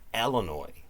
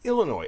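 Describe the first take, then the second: First: The final S is pronounced. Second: The final S is silent. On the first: The speaker calls it wrong. "People putting an S on it, you know, the S is not silent" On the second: The speaker calls it right. "It's Illinois"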